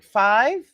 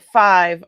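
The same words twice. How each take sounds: First: FIVE with a rising, disbelieving question tune; incredulous FIVE, lifting at the end. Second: FIVE said loud with falling certainty; loud, matter-of-fact FIVE; firm statement of FIVE. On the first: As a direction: echo FIVE back as a surprised question. Retelling her surprised echo. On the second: Retelling staff's answer to her. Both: Retold or imitated.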